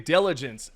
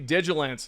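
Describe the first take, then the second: First: The first syllable sounds like 'dil'. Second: The first syllable sounds like 'dig'. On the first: The speaker calls it right. "I'm going to say it correctly" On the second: The speaker calls it wrong. "No, I'm kidding. That's what I said previously in another video"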